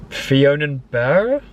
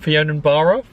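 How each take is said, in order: First: "Fionnuala" slow, ending like "bear", rising; unsure pronunciation. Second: "Fionnuala" ending like "barra"; retry "Fionnuala" with an open ah, quicker; second pronunciation attempt. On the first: Guessing a place name, slow questioning "Fionnuala" ending like "bear". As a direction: question "Fionnuala" slowly with an air-vowel ending. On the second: Second guess at a place name, "Fionnuala" ending like "barra". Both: Real, not acted. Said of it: "I can't pronounce anything".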